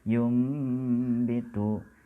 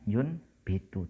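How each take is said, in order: First: An m sound comes before the b. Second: An n sound comes before the b. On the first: This is how it is read. "tapi membacanya yum bitu" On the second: This is how it is written. "di situ tertulisnya yun bitu"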